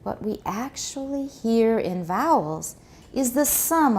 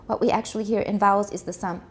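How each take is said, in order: First: It is smooth, with a rolling, flowing intonation. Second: It is rushed and choppy, without a flowing rhythm. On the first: The speaker calls it right. "it should have this rolling kind of intonation" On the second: The speaker calls it wrong. "you're going so fast that I'm just getting like this"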